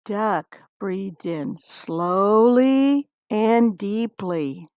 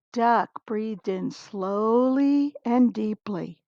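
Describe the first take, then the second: First: Very slow and calm, like Duck breathing in and letting go; very slow reading. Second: Slowed down, unhurried; slow and calm, like Duck breathing in; slow calm reading. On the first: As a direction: stretch it out, letting the last word drop away. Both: A narrator's reading.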